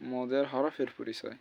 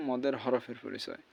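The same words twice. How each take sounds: The two takes are said the same way.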